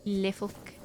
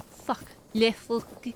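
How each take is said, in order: First: French accent. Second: Playful mock French accent. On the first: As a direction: settle into a mock French accent. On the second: Streamer trying French for seals, French accent. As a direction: say it like a French word. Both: Shown as a demonstration. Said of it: "I just love the French accent".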